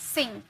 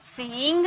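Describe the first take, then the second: First: The vowel is said quickly and short. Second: The vowel is drawn out long. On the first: The speaker calls it right. "तुरंत बोलेंगे" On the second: The speaker calls it wrong. "सिंग नहीं"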